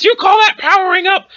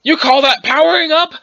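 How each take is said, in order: First: Higher, raised-voice challenge; insistent taunt. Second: Said in the usual way. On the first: Acted. Challenging Gramps who ignored the question, insistent high taunt. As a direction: throw the question harder, pitched up.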